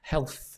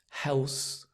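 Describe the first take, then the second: First: The ending is a soft th between the teeth. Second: The ending sounds like a z, like Hell's. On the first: The speaker calls it right. "The the tongue just touches in between the teeth" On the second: The speaker calls it wrong. "it sounds like Hell's"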